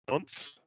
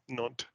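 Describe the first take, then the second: First: The final S sound is pronounced. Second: The final S sound is silent. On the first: The speaker calls it wrong. "I'm going to pronounce this incorrectly again because of my Aussie um, pronunciation" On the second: The speaker calls it right. "No S"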